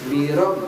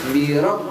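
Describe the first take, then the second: Both takes have the same delivery.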